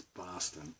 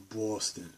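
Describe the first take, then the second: First: Boston with an open "ah"; soft, open-vowelled Boston; unforced local pronunciation. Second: Boston with a rounded "aw"; slow, rounded "Bawston" for Boston; forced pronunciation. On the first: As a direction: say Boston as "Bahston". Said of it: "It's Boston". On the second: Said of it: "not Boston". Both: Shown as a demonstration.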